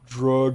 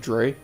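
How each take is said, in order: First: The name rhymes with the word grug. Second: The name rhymes with the word gray. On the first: "Drug rhymes with grug" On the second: "pronounce it like Gray. Oh, so Dre?"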